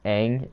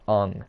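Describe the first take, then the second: First: The name is said the original way. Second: The name is said the altered way. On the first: This is how the show says it. The speaker calls it right. "the character names too are just mispronounced" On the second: This is how the movie says it. The speaker calls it wrong. "Aang is pronounced Ung"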